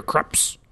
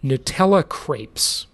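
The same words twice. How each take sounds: First: Crepes said short, like "kreps"; local pronunciation. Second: Said in the usual way. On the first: Shown as a demonstration. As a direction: crepes with a clipped local vowel. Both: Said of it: "Or as they say here".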